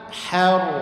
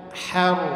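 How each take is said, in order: Both takes have the same delivery.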